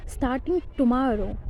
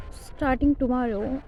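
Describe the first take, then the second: No difference in how they are said.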